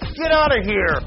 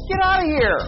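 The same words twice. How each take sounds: First: It is said in a harsh, angry tone. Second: It is said in an excited, happy tone.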